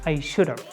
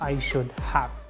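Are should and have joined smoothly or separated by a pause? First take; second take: joined; separated. First: Should and have run together without a pause. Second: A small pause separates should and have. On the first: The speaker calls it right. "you should say" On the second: The speaker calls it wrong.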